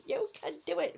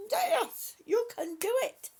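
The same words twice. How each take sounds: First: Said in the usual way. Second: Loud, high cheer of encouragement; root for them with everything; excited cheer. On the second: Real, not acted. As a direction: shout it out like a cheerleader. Cheering on a struggling viewer.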